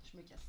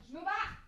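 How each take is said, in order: First: Said in the usual way. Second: Mock rage-quit, higher and louder; raging gamer. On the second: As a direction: fake storming off. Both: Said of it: "Je rage quitte vraiment".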